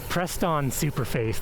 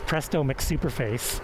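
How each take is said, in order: First: The name runs together and drops a syllable. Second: Every syllable of the name is said clearly. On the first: The speaker calls it wrong. "that's what it sounds like" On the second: The speaker calls it right. "it's Presto McSuperface"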